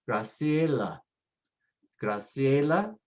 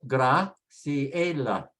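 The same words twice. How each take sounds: First: Graciela as one smooth word, grah-SYEH-lah; joined up. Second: Graciela slowly in parts, grah-see-EH-lah; sounded out slowly. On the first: Teacher repeats the name for learners, whole word joined. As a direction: say Graciela without breaks. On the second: Teacher models the next name for learners, slow syllables. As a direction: draw Graciela out with breaks between syllables. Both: Shown as a demonstration.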